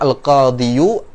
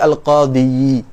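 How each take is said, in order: First: The word ends with a final u after y. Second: The word ends with a final i after y. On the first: "daripada kita mengatakan al-qadiyu" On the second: "apalagi al-qadiyi"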